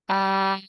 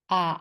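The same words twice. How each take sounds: First: The pitch stays high and level. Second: The pitch dips low then rises. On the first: "How to say the first tone?" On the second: "And how about the third one?"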